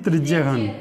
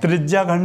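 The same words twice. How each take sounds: First: त्रिज्याखंड said as 'trijya-khand' with a short vowel before ख; short vowel after ज्य. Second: त्रिज्याखंड with a long 'aa' after ज्य. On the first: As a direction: drop the long aa in त्रिज्याखंड, as the corrected form. (त्रिज्याखंड को बिना 'आ' की मात्रा, त्रिज्यखंड बोलें) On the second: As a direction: say त्रिज्याखंड with the aa-matra sounded, as the wrong form. (त्रिज्याखंड में 'आ' की लंबी मात्रा के साथ) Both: Shown as a demonstration. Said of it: "आगा डंडा नहीं है".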